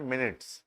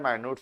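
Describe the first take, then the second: First: The first syllable sounds like 'min'. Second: The first syllable sounds like 'my'. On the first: The speaker calls it right. "Actual pronunciation है मिनट्स" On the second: The speaker calls it wrong. "माइन्यूट्स वैसे actual pronunciation है नहीं"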